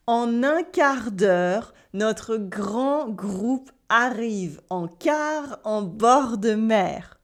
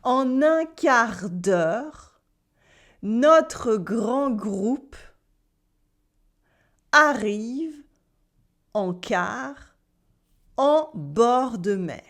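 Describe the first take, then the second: First: Slow, careful French sentence with throaty Rs; slow French drill. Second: Very slow French sentence with long pauses between chunks; even slower drill. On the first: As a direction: model the sentence slowly for learners. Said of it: "Try this". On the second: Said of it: "You can try again". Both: Shown as a demonstration.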